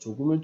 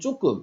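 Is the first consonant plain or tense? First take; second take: plain; tense. First: The first consonant is plain and soft. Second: The first consonant is tense and hard. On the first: The speaker calls it right. "예사소리로 발음해야 되는" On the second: The speaker calls it wrong. "된소리로 발음한다든지"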